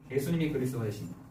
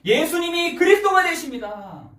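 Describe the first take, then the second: First: Low, soft, quick repeat; subdued confession, dropped in pitch; hushed restatement. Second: High, raised-voice confession of faith; ringing declaration, pitched high; fervent proclamation. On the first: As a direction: say it back quietly, almost to yourself. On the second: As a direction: proclaim it from the pulpit with force. Confession proclaimed, then repeated low. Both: Acted.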